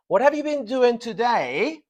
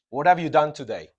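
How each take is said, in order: First: BEEN DOING TODAY held high and loud, rising at the end; emphasis on duration. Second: Said in the usual way. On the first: Shown as a demonstration. Teacher contrasting two questions for the class, duration emphasized. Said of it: "you are emphasizing the process". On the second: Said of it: "the emphasis is not on the process".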